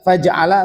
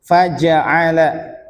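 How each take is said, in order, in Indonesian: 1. Bunyi j tidak diikuti vokal. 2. Bunyi j diikuti vokal. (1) "faja'ala salah" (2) "ini harokatnya fathah"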